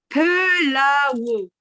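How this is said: It is said with Korean sounds, like pelao.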